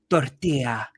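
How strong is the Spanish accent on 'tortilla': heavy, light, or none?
heavy. It is said with a heavy Spanish accent. The speaker sounds pretentious. "you sound pretentious"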